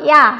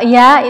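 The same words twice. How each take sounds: First: The sound is thinner and lighter. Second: The sound is fuller and less thin. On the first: It is the Arabic way of saying it. The speaker calls it right. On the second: It is the Indonesian way of saying it. The speaker calls it wrong. "Kalau ya itu bahasa Indonesia"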